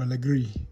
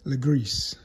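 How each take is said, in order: First: The name ends without any s sound. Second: The name ends with an audible s sound. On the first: The speaker calls it right. "if that's French" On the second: The speaker calls it wrong. "Maybe you don't say Greece"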